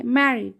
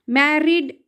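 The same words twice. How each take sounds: First: "मैरिड" with one very light R; barely touch the R in "मैरिड", falling at the end; correct pronunciation. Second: "मैरिड" with a heavy double R; "मैरिड" as mair-rid, the mistake; wrong pronunciation. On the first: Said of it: "आर का sound ये बहुत हल्का होता". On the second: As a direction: roll the R hard in "मैरिड". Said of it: "मैरिड ऐसे नहीं बोलेंगे". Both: Shown as a demonstration.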